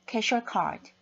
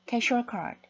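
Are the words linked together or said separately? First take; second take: linked; linked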